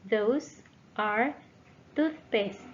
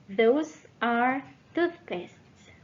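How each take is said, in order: Both takes have the same delivery.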